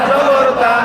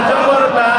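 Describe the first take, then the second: No difference in how they are said.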